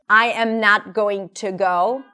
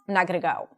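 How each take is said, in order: First: Each word is said fully and separately. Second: The words are reduced and linked together.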